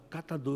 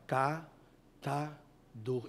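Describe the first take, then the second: First: Said in the usual way. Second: Drawn out very slowly, syllable by syllable. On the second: Shown as a demonstration. Preacher coaching a girl to repeat a word slowly. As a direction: stretch every sound of "Catador" as slowly as you can. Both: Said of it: "Não, fala devagar".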